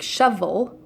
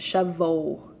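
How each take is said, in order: First: The word ends with a clear L sound. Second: The word ends with an O-like vowel sound. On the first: The speaker calls it right. "a word like shovel" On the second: The speaker calls it wrong. "will become shovel"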